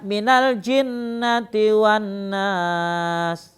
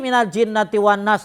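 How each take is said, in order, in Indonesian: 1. Ada jeda singkat setelah akhir frasa. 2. Bacaan langsung bersambung tanpa jeda setelahnya. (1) "Ada jedanya"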